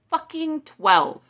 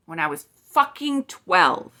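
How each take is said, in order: First: "Fucking" hit higher and louder, slow and drawn out; slow, outraged stress on "Fucking"; fucking twelve, emphatic. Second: Said in the usual way. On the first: Real, not acted. Vlogger to her viewers, angry stress on "Fucking" drawn out slowly. Repeats outrage at residential schools.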